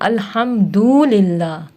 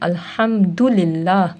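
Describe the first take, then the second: First: The vowel after the d is drawn out long. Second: The vowel after the d is short. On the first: The speaker calls it wrong. "वाव बढ़ा देते हैं" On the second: The speaker calls it right. "दाल के ऊपर पेश पढ़ते हैं"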